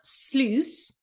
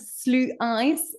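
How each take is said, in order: First: The word is one syllable, rhyming with juice. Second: The word is split into two syllables. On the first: The speaker calls it right. "it's like juice" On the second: The speaker calls it wrong. "for some reason I pronounce it slu ice"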